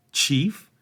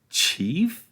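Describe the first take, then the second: First: Incredulous. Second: Higher, rising disbelief; more incredulous. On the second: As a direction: repeat it in mounting disbelief. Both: A narrator's reading. Frodo repeats in disbelief.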